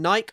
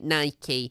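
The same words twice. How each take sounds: First: It is said with a British pronunciation. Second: It is said with an American pronunciation. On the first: "Do you pronounce it like I do, as in Nike? ... my British pronunciations" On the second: "I'm always getting chastised for ... not calling it Nike"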